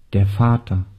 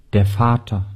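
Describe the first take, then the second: No difference in how they are said.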